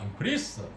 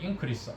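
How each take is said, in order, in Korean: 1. 강세는 두 번째 음절에 있습니다. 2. 강세는 첫 번째 음절에 있습니다. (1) "동사일 때는 둘째 음절 한 음절 후치되어서 발음이 됩니다" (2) "명사일 때는 increase 앞에 액센트하고"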